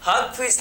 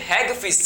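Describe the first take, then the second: First: The first vowel sounds like 'hug'. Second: The first vowel sounds like 'hag'. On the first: The speaker calls it wrong. "हग fish नहीं" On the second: The speaker calls it right. "हैग fish इसे बोलते हैं"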